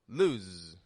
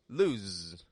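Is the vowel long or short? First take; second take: short; short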